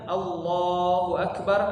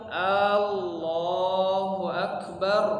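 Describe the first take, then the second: First: The vowels are kept at normal short length. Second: A vowel in the phrase is drawn out long. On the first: God is the Greatest. The speaker calls it right. "Harusnya Allahu Akbar artinya Allah Maha Besar" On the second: It asks whether God is the Greatest. The speaker calls it wrong. "Kalau dibaca panjang"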